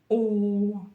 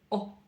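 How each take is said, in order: First: The vowel is held at normal length. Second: The vowel is cut off very short. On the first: "обыкновенную букву «о» из русского алфавита" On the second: "произносим ее достаточно коротко"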